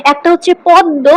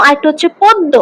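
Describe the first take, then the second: First: পদ্ম said with a plain oral vowel, no nasal; পদ্ম without nasalisation; plain padma. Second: পদ্ম with the first vowel nasalised, as with chandrabindu; পদ্ম with a chandrabindu nasal; nasalised padma. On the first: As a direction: say পদ্ম clean, no chandrabindu sound. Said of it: "একটাতে চন্দ্রবিন্দু বসে না". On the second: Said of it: "একটাতে চন্দ্রবিন্দু বসে". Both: Shown as a demonstration.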